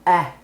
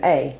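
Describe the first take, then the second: First: The vowel is short, as in apple. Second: The vowel is long, like the letter's name. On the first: "like apple" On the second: "or it can say its name"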